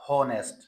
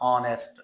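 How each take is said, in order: First: It starts with a clear h sound. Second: It starts with a vowel, no h sound. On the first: The speaker calls it wrong. "Not" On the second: The speaker calls it right. "इसमें हा sound तो है ही नहीं start में"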